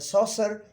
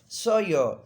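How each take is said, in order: First: The middle has a clear s sound. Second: The middle has no s sound. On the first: The speaker calls it wrong. "is not the uh, correct pronunciation" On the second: The speaker calls it right. "the real pronunciation is Sawyer"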